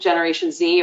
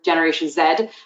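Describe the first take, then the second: First: The Z is said the American way. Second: The Z is said the British way.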